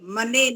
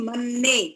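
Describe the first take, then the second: First: The n sound is short and single. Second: The n sound is held and doubled. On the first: The speaker calls it wrong. "मने नहीं" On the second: The speaker calls it right. "दो ना है ना यहाँ तो"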